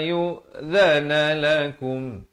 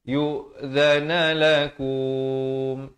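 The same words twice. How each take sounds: First: The final vowel is cut short at the stop. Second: The final vowel is lengthened at the stop. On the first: The speaker calls it right. "yang betulnya ... Terus berhenti" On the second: The speaker calls it wrong. "Jangan waqaf dengan ini bacaan yang salah. ... Itu salah"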